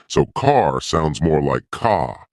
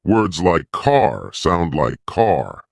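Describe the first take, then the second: First: Car said as ka, no R, slowly; soft British R. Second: Car with a strong, rolled-back R, said slowly; strong American R. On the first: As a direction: drop the R: car becomes ka. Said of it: "soften the R". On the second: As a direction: lean hard on the R in car, slowly. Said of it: "strong R sound". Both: Shown as a demonstration.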